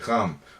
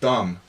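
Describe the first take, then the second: First: The word begins with a softened, lenited sound. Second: The word begins with a hard d sound. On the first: "I'll say ram" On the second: "instead of dum"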